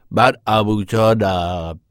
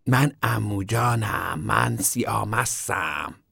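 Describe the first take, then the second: First: Put-on slow, childish drunk act; boy imitating his drunk uncle, slow and hammed-up; mock drunk uncle. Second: Put-on slow, slurred childish drunk act; girl showing how a drunk uncle talks, slow and hammed-up; mock drunk uncle. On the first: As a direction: drag out من عموجانم like a playacting drunk. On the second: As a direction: drawl من عموجانم, slurring like a playacting drunk.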